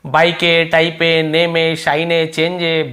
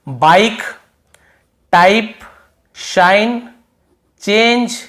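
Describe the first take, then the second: First: बाइक, टाइप, चेंज misread with an extra "ay" on the end; final E sounded. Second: Said in the usual way. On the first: Shown as a demonstration. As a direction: voice the silent E after बाइक, टाइप, शाइन. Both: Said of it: "ऐसे तो नहीं पढ़ रहे ना".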